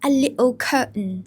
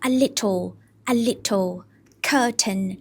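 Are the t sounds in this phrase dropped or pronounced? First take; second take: dropped; pronounced. First: The t sounds are dropped. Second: The t sounds are clearly pronounced. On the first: "เขาไม่ออกเสียงตัว, t ... แต่เขาออกเสียงว่า" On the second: "ปกติก็จะ"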